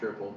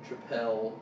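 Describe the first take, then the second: First: The word sounds like the ordinary word 'triple'. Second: The word ends in a stressed 'pell' sound. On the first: This is the speaker's habitual pronunciation. "I always say triple" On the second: This is believed to be the proper pronunciation. "I believe is how you pronounce it"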